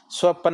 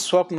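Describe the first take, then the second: First: स्वपन in two syllables, swa-pan; wrong form. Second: स्वप्न as one tight swapn; correct cluster. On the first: Teacher repeating the mistake, स्वपन as swa-pan. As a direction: put a vowel before the 'n' of स्वपन. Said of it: "नहीं होता". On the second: Teacher answering own question, स्वप्न as swapn. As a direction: close 'p' straight onto 'n' in स्वप्न. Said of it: "क्या होता है". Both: Shown as a demonstration.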